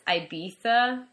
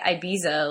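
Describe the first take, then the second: First: The middle consonant is a 'th' sound. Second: The middle consonant is a 'z' sound. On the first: The speaker calls it wrong. "they choose to do the TH for the Z" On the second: The speaker calls it right. "just say Ibiza like every other English-speaking person"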